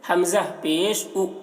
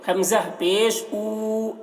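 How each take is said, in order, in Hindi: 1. अंतिम स्वर जल्दी और छोटा बोला जाता है। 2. अंतिम स्वर लंबा खींचकर पढ़ा जाता है। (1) "जल्दी पढ़ेंगे" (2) "ऐसे नहीं"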